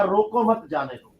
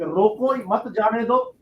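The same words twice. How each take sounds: First: रोको मत grouped as one, then जाने दो; pause after मत. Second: रोको set apart, then मत जाने दो run together; pause after रोको. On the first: Showing the other reading of the law, रोको मत grouped before जाने दो. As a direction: put the comma after मत, so it means let go. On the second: Showing the cause of tax disputes, pause after रोको before मत जाने दो. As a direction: put the comma after रोको, so it means stop them. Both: Shown as a demonstration. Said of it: "comma इधर से उधर किया".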